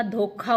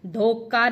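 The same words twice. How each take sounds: First: धोखा with aspirated kh; slow धोखा, puff of air on "kha"; correct aspiration. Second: धोखा with unaspirated k, "dhoka"; wrong consonant. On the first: Teacher correcting the mistake, धोखा with aspirated "kha". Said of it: "धोखा होता है". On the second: Teacher showing the mistake, धोखा as "dhoka". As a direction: say धोखा as "dhoka", no breath after k. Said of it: "धोखा नहीं होता". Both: Shown as a demonstration.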